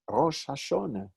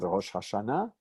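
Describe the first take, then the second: First: It is said with an Ashkenazi Hebrew pronunciation. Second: It is said with a modern Hebrew pronunciation. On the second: "We call it Rosh Hashanah"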